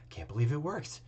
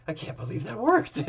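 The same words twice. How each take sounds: First: Softer, stunned under the breath; dazed murmur. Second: Higher, dawning disbelief; stunned disbelief. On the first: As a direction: say it to yourself, stunned. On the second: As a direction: realize it really happened. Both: Acted. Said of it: "his eyes are elsewhere".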